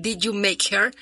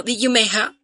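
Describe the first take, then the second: First: Said in the usual way. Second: British accent. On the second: Shown as a demonstration. Explaining the D'yer Mak'er joke to listeners, in a light British accent. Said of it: "si lo dijeran con cierto acento británico".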